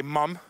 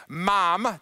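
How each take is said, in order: First: A light Australian "mum". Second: "mom" said the American way with an open ah; plain American "mom". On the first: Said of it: "they say". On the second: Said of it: "instead of saying". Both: Shown as a demonstration.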